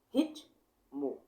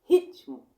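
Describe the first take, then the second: First: Said in the usual way. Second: "ritmo" split into rit-mo, high and loud; syllables punched. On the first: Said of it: "eu vou falar ritmo". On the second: Shown as a demonstration. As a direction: hit each beat of "ritmo" hard. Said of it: "ó, ritmo, eu vou falar ritmo". ("ritmo" em dois golpes de ar, alto)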